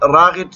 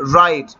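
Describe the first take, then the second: First: A throaty gh sound is pronounced in the middle. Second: The gh is silent, with no throaty sound. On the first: The speaker calls it wrong. "آپ غین تلفظ نہیں کرو گے ... تو وہ غلط ہوگا" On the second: The speaker calls it right. "تو آپ کس طرح تلفظ کرو گے، رائٹ"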